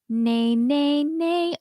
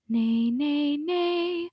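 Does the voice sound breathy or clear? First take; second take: clear; breathy. First: The voice is clear, with no air leaking. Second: The voice is breathy, with air leaking through. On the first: The speaker calls it right. "do you feel that it's a clean sound?" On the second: The speaker calls it wrong. "with a bunch of air leaking through"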